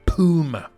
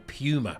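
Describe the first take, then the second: First: Puma is said in an American accent. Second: Puma is said in an English accent.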